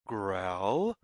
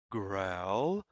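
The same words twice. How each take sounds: The two takes are said the same way.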